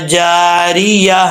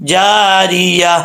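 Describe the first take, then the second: No difference in how they are said.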